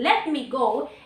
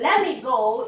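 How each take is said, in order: First: Every word is said fully and separately. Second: The first two words blend into a reduced form. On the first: It is the fuller, less casual form. "instead of saying" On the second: It is casual everyday talk. "We are saying"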